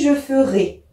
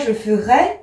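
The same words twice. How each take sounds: First: The final vowel is the closed 'é' sound. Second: The final vowel is not the closed 'é' sound. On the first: The speaker calls it right. "on prononce « et » ici" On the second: The speaker calls it wrong. "On ne dit pas"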